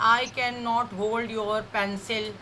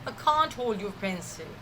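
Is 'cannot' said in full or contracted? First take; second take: full; contracted. First: Can not is said as two full words. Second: Can not is shortened to one syllable, can't. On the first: The speaker calls it wrong. "वो ऐसे नहीं बात करते" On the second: The speaker calls it right. "You have to use contractions"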